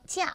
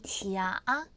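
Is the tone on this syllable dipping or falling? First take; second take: falling; dipping. First: The syllable has a sharply falling fourth tone. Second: The syllable has a low dipping third tone. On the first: It means vacation. "명사로 쓰일 때는 휴가 가짜라고 해서 지하 사성이에요" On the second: It means fake. "형용사로 쓰일 때는요. 발음이 지하아 삼성으로 들어가요"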